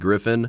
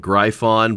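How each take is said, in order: First: The word is said to sound like griffin. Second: The word is said following its unusual spelling. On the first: The speaker calls it right. "I believe the pronunciation is actually Griffin" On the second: The speaker calls it wrong. "at first I wanted to say Gryphon"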